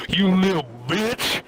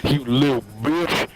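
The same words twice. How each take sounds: First: Mock angry scream. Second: Low put-on growl of outrage; mock angry scream. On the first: Retelling the driver seeing blood on the seat, mock scream. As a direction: swoop up on the last word in mock fury. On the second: Retelling the driver's outburst again, low mock-angry voice. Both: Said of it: "and he screams at me".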